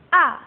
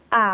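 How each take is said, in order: First: The pitch falls sharply from high to low. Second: The pitch dips low, then rises. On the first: "Yang keempat nadanya turun kayak orang marah. Disentak ya" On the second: "Yang ketiga itu nadanya lengkung"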